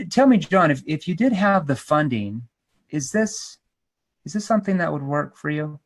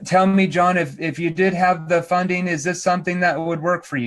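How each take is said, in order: First: Natural tone, pausing before and after "is this"; curious question with a thoughtful pause at "is this". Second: Robotic. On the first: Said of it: "Notice how I paused. Notice my tonality". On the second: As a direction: recite it like a robot, no pauses. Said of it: "You can't sound like a robot". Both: Shown as a demonstration.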